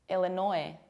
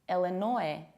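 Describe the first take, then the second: No difference in how they are said.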